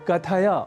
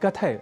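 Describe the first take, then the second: First: The final short 'a' vowel is pronounced. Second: The final short 'a' vowel is dropped. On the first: The speaker calls it right. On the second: The speaker calls it wrong.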